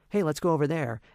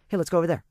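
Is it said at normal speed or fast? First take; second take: normal; fast. First: It is said at a normal pace. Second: It is said very fast, squeezed together.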